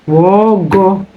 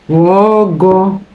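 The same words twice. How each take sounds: The two takes are said the same way.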